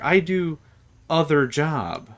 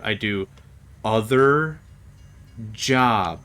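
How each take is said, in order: First: It is said at normal speed and pitch. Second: It is said slowly with a lower pitch.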